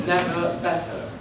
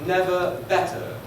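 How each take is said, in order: No difference in how they are said.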